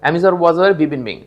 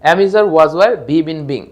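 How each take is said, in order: First: The list is said at a fast pace. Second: The list is said at a moderate pace. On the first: "দ্রুত বলে ফেলবেন" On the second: "আপনারা আমার সাথে বলে ফেলবেন"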